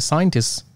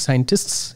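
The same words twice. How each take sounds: First: A consonant in the final cluster is dropped. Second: Every consonant in the final cluster is pronounced. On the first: The speaker calls it right. "you can skip one or more than one of them" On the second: The speaker calls it wrong. "if you try to pronounce all the letters there"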